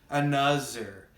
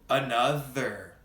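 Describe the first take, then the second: First: The middle consonant is a z sound. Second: The middle consonant is a th sound. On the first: The speaker calls it wrong. "you will make the S or Z sound. I often hear this mistake" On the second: The speaker calls it right. "bite your tongue and then blow air through it"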